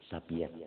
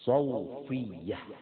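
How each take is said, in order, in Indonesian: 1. Nama ini diucapkan Sapiyah, dengan p. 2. Nama ini diucapkan Sofiyah, dengan f. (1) "Kalau orang kampung bilang Haji Sapiyah" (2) "Itu yang betul namanya"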